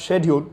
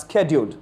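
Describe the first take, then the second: First: SCHEDULED said "shed-yooled"; scheduled the British way, SH rather than SK; British pronunciation. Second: SCHEDULED said "sked-yooled"; scheduled the American way, SK rather than SH; American pronunciation. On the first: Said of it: "British accent". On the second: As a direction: open scheduled with a hard SK. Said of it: "an American accent". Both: Shown as a demonstration.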